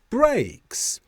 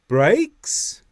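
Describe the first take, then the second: First: The pitch goes up, then falls. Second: The pitch starts low, then rises. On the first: "the tone falls before we finish the word brakes" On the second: "we start low and then rise before we finish the word brakes"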